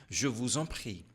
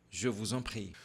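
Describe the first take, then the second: The two takes are said the same way.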